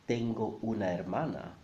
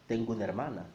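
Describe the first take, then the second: First: Each word is said separately and clearly. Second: The words run together quickly into linked syllables. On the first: "Even though you would write" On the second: "if you're saying it quickly, you will actually say"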